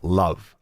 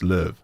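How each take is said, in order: First: The name is said like the English word love. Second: The name is said with a rounded ö vowel. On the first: The speaker calls it wrong. "his name is not Love" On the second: The speaker calls it right. "it's Löw, right?"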